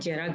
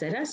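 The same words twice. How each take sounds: First: The word begins with a j sound. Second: The word begins with a buzzing z sound. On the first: The speaker calls it wrong. "गलत होता है" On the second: The speaker calls it right. "सही होता है"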